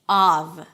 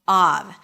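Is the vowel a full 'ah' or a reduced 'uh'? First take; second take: full ah; full ah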